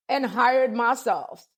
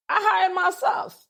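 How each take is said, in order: First: Hired drawn out very slowly and falling firmly; calm slow closing of the point; slow emphatic repeat. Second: HIRED lifted high and stretched out slowly; triumphant self-made boast; defiant emphasis. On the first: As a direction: spell out each word of hired myself, slowly and firmly. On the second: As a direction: land hired with proud, rising weight. Proud defiance, self-employment. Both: Real, not acted.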